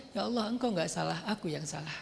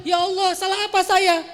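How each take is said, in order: First: Softer, lower humble admission; humble confession. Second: Higher, louder aggrieved outcry; indignant demand. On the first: Preacher shows the right humble way to pray. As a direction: confess it softly, bowing your head. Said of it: "Harusnya ngomongnya". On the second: Preacher mocks a believer demanding what they did wrong. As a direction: demand it like you were wronged. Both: Shown as a demonstration.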